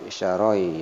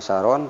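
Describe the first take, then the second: First: The final n merges into a y sound. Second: The final n is pronounced clearly. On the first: The speaker calls it right. "tapi syaroi ya munculnya huruf eh, huruf ya" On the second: The speaker calls it wrong. "bukan saron"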